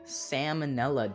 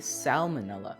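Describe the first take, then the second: First: The first L sound is left silent. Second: The first L sound is clearly pronounced. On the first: The speaker calls it wrong. "You don't say salmonella" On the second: The speaker calls it right. "You say salmonella"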